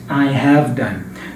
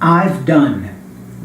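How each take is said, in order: First: It is said as the full, uncontracted form. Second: It is said as the short contracted form. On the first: The speaker calls it wrong. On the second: The speaker calls it right. "you have to read and speak the contraction"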